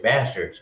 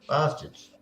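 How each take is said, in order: First: It is said with an American accent. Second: It is said with an Australian accent. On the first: "You say bastards" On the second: "we say bastards"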